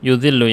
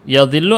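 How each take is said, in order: First: The first vowel is a 'u' sound. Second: The first vowel is an 'a' sound. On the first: The speaker calls it right. "Yudhillu ya" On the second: The speaker calls it wrong. "Yadhillu apa yudhillu?"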